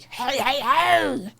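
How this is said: It is said in a low voice.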